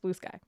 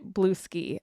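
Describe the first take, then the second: First: The second word is said like 'sky'. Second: The second word is said like 'ski'. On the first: The speaker calls it right. "but it's Blue Sky" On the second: The speaker calls it wrong. "I was also pronouncing it Blue Ski"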